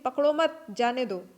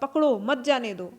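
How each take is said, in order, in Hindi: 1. 'mat' शब्द के बाद विराम है। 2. 'pakdo' शब्द के बाद विराम है।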